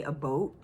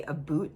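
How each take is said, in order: First: "a boat" with an oh vowel, meaning about; Canadian "about". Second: "a boot" with an oo vowel, meaning about; "about" as "aboot". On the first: Host describing Canadian YouTubers, about as "a boat". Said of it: "they say a boat". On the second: Host contrasting Canadian vowels, about as "a boot". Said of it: "they don't say a boot". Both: Shown as a demonstration.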